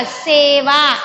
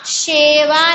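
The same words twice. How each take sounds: First: सेवा starting with a clean s; सेवा, plain s and long e; correct pronunciation. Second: शेवा starting with a sh sound; शेवा, hushing sh at the start; wrong pronunciation. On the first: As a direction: model सेवा with s, no sh. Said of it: "शा नहीं आएगा". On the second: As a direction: misread it as शेवा with sh. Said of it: "नहीं है". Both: Shown as a demonstration.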